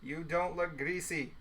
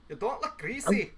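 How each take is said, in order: First: Said in the usual way. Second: Slower put-on voice, lifting at the end; drawn-out, playful echo with rising end; playful put-on repeat.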